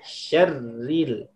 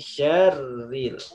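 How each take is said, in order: First: The first vowel is short and quick. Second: The first vowel is drawn out long. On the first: The speaker calls it right. "Tapi langsung syarril" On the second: The speaker calls it wrong. "Jangan di min syarril"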